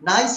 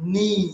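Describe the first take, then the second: First: The vowel sounds like 'eye', as in nice. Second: The vowel sounds like 'ee', as in see. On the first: The speaker calls it wrong. "নাইস বলে অনেকে ভুল করে, নাইস হবে না" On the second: The speaker calls it right. "It will be নিস"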